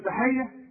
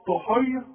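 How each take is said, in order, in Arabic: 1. صوت t الأول عادي وخفيف. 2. صوت t الأول ثقيل ومفخم.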